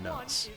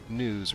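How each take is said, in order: First: The vowel is a short 'uh' sound. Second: The vowel is a long 'oo' sound. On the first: The speaker calls it wrong. "Nuzz makes it sound like you're nuzzling something" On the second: The speaker calls it right. "I like the sound of news"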